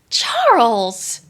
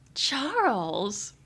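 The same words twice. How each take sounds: First: The name is said in a surprised tone. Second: The name is said in a flirty tone. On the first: "Am I surprised?" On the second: "a little different take"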